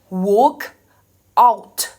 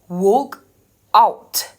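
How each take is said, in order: Both takes have the same delivery.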